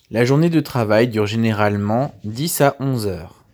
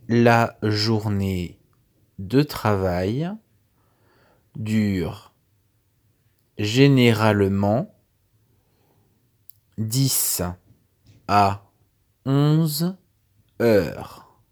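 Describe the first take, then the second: First: It is said at normal speed. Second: It is said slowly.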